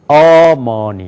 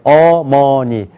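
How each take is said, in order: First: The stress is on the first syllable. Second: All syllables have equal pitch, loudness and length. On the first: "앞에가 강조가 되면은" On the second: "높이가 같아요"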